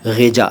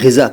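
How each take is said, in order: First: It starts with a throaty gh and has j. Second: It starts with a throaty gh and has z. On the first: The speaker calls it wrong. "नहीं कह रहा" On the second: The speaker calls it right. "मैं ग़िज़ा कह रहा हूँ"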